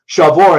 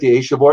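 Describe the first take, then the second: First: The word begins with a sh sound. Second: The word begins with an a vowel sound.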